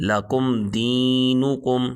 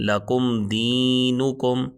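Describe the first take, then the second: No difference in how they are said.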